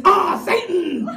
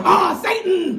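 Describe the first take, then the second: First: Slow, loud ah, Satan; slow comic reveal; drawn out reveal. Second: Louder ah, Satan through a laugh; loud laughing reveal; laughing shouted reveal. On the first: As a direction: spell out the reveal slowly. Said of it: "Natasha backwards is". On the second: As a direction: cry it out gleefully. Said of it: "Seriously, check it out". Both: Shown as a demonstration.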